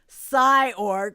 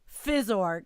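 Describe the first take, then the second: First: The name begins with a 'sigh' sound. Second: The name begins with a 'fizz' sound. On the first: The speaker calls it wrong. "I have pronounced it Psyorg forever. I have the New York City pronunciation" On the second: The speaker calls it right. "it is Fizzorg"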